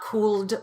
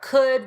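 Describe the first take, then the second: First: The L sound is pronounced in the word. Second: The word is said without an L sound. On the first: The speaker calls it wrong. "It's not" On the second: The speaker calls it right. "No L there"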